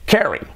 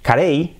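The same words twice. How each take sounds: First: "Carey" as short KE-ree, pitched up; English pronunciation. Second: "Carey" as ka-REY; tapped R, stressed "ey" in "Carey"; Spanish-style pronunciation. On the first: Teacher giving the correct surname, English pronunciation. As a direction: stress first syllable of "Carey", end in "ee". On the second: Teacher setting up the wrong surname, hispanicized. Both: Shown as a demonstration. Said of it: "Carey es".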